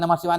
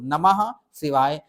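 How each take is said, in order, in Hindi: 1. दोनों शब्द एक-दूसरे से सटाकर पास-पास बोले जाते हैं। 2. दोनों शब्द बीच में थोड़ा रुककर अलग-अलग बोले जाते हैं। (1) "जैसे समीप लाओगे" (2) "अलग-अलग बोलो, दूर-दूर बोलो"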